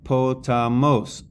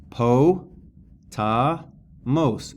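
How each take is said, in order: First: Said in the usual way. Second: "Po, ta, mos" broken apart, pausing after each syllable. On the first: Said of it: "The acute is on the third". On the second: Shown as a demonstration. Teacher showing the third and final syllable, syllable by syllable. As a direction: split "Po, ta, mos" into three separate beats. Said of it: "on the third and final syllable".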